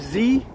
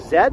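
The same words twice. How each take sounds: First: The letter is said as zee. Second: The letter is said as zed. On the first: The speaker picked this up from American shows and movies. "I say Z for some reason" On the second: This is the standard form in Canada. "Z is the proper way to say that in Canada, using the British pronunciation"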